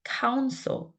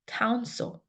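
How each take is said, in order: First: The second syllable's vowel is almost dropped. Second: The second syllable's vowel is almost dropped.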